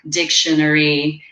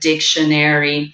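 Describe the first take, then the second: First: It is pronounced in a British accent. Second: It is pronounced in an American accent. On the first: "or dictionary" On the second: "instead of dictionary"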